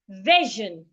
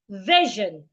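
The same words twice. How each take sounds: First: The middle consonant is a voiced 'zh' sound. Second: The same.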